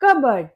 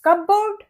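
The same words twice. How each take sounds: First: कबर्ड as KUH-burd, weak ending; correct pronunciation. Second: कपबोर्ड as cup-BOARD, full second syllable; raised, full BOARD ending on कपबोर्ड; wrong pronunciation. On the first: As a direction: stress the first syllable of कबर्ड, short burd. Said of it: "ये होता है". (कबर्ड में छोटा 'बर्ड') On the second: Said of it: "ये कपबोर्ड नहीं होता". (कपबोर्ड में पूरा 'बोर्ड' बोलकर) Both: Shown as a demonstration.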